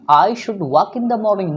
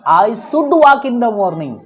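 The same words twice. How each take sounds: First: The word 'should' begins with an 'sh' sound. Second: The word 'should' begins with an 's' sound. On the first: The speaker calls it right. "तो हमें उच्चारण करना है शुड" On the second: The speaker calls it wrong. "Not"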